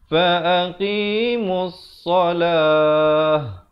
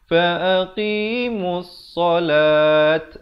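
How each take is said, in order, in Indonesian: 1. Kata terakhir berakhir dengan bunyi h. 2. Kata terakhir berakhir dengan bunyi t. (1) "yang betulnya fa'aqimus salah. Ha besar ya" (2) "jangan bunyi fa'aqimus salat. Itu salah"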